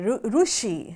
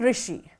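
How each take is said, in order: First: The first syllable is pronounced with a ru sound. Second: The first syllable is pronounced with a ri sound. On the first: This is how it is said in Andhra. "in the Andhra we, we say Rushi" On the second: This is how it is said in northern regions. "in the northern parts we use the word Rikara"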